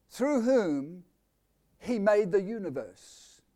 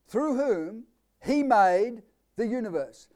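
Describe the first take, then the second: First: Said in the usual way. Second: Each word of "Through whom he made the universe" leaned on slowly, "he" hit hardest; drawn-out preacher's emphasis on "he"; slow emphatic reading. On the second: Shown as a demonstration. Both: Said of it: "I'm going to emphasize certain things".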